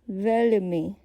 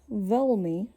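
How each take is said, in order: First: The L is soft and light. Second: The L is dull, round and hard. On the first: "with a soft L" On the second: "with a dull, round L sound"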